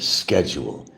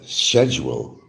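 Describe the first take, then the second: First: It is said the American way. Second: It is said the British way. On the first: "instead of schedule" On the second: "they'll pronounce the words like it's supposed to be, how it's actually spelt"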